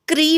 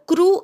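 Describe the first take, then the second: First: The syllable ends with an 'ee' vowel. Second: The syllable ends with an 'oo' vowel. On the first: The speaker calls it wrong. "खूप जण हिंदीतल्यासारखा क्री म्हणतात" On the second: The speaker calls it right. "खरा मूळ शब्द क्रू असा आहे"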